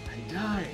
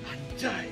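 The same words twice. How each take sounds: First: It sounds admiring, as at something beautiful. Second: It sounds hurt and upset over a loss.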